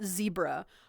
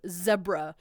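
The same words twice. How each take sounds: First: Zebra is pronounced the way non-Europeans say it. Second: Zebra is pronounced the way most Europeans say it. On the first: "not zebra" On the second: "that's how most Europeans say it"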